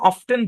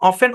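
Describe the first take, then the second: First: The t sound is pronounced. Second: The t sound is silent. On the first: It is an older form. "টিটাও সহ উচ্চারণ করে" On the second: It is the modern form. "এখানে টিটা silent"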